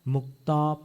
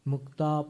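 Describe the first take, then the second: Both takes have the same delivery.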